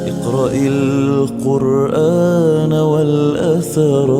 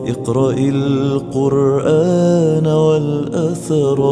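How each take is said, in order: No difference in how they are said.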